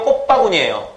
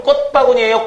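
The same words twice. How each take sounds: First: "꽃바구니예요" said 꼽빠구니, p closing 꽃; colloquial pronunciation. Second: "꽃바구니예요" said 꼳빠구니, t closing 꽃; standard pronunciation. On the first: Teacher offering the non-standard option, colloquial pronunciation. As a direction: shut the lips early in "꽃바구니예요". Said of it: "근데 비표준이래요". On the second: Teacher asking students which they say, standard pronunciation. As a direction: keep a t stop before the tense p in "꽃바구니예요". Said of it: "꽃바구니 해야 되지". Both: Shown as a demonstration.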